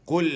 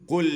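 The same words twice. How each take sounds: No difference in how they are said.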